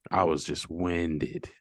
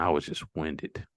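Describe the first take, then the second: First: "winded" drawn out slowly for emphasis; slow emphatic repeat. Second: Said in the usual way. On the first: Real, not acted. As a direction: stretch out "winded", half the speed.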